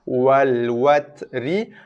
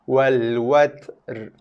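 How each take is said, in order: First: The final r is followed by a short i vowel. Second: The final r is cut off halfway with no vowel. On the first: This is the word's original form. "asalnya wal watri" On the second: This is the form used when stopping at the word. "macam kita nak sebut ri, tapi bunyinya terputus"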